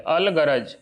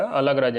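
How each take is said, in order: First: अलगरज said clearly as अल-ग-रज; correct pronunciation. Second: अलगरज run together, syllables slurred as अलग्रज; wrong pronunciation. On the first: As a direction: give अलगरज each syllable, अल ग रज. (अलगरज का सही उच्चारण, अल-ग-रज साफ़ साफ़) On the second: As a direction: say अलगरज the wrong way, clipping the middle vowel. (अलगरज का गलत उच्चारण, बीच का स्वर दबाकर) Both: Shown as a demonstration. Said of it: "इसको ऐसे पढ़िएगा".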